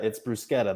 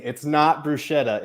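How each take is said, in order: First: "bruschetta" with a hard k; Italian pronunciation demo. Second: Sh sound in "bruschetta"; wrong pronunciation demo. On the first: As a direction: say "bruschetta" as broos-KET-ta. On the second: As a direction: stress the mistaken "bruschetta", broo-SHET-a. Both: Shown as a demonstration. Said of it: "just an Italian lesson".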